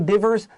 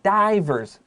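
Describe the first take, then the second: First: The first vowel is a short sound. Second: The first vowel is a long 'eye' sound. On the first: The speaker calls it wrong. "Please don't say divers" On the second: The speaker calls it right. "This is a long I, like the letter I"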